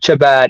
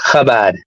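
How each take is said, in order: First: It begins with a 'ch' sound as in church. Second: It begins with a throaty German-like 'ch' sound. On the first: The speaker calls it wrong. "it's not Chabad" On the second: The speaker calls it right. "It's pronounced Chabad. ... they use it the same way how it's spelled in German"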